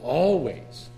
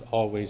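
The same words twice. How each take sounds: First: The word is said with strong, forceful emphasis. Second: The word is said flatly, without emphasis. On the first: The word is felt as important. "You begin to emphasize that word always" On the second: The words are only being repeated. "repeating kind of monotone prayer reading"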